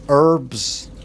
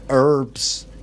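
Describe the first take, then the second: First: It is said in an American accent. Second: It is said in an American accent.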